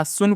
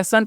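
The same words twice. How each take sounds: First: सुन with an "oo" vowel, like "soon" cut short; गलत उच्चारण. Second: सन with a short "a", as in English "sun"; सही उच्चारण. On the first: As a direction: misread sun as सुन, sounding the u. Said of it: "S U N को क्या?". (सुन में उ की ध्वनि) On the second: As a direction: say सन to rhyme with "fun". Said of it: "आपको सन पढ़ना है". (सन में छोटा अ, उ नहीं) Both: Shown as a demonstration.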